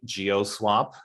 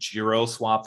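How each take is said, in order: First: The first part is said without an R sound. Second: The first part is said with an R sound. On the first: The speaker calls it right. "it's definitely GeoSwap" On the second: The speaker calls it wrong. "I keep saying GiroSwap for some reason"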